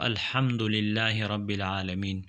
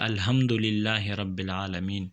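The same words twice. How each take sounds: First: The h is a harsh throat sound. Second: The h is a soft plain sound. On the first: The speaker calls it right. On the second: The speaker calls it wrong.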